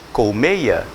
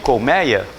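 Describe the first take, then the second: First: The stressed e vowel is closed. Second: The stressed e vowel is open. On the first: This is the classic pronunciation. "pronúncia clássica e correta é, pasmem, colmeia" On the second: This is how people came to say it. "as pessoas passaram a falar o quê?"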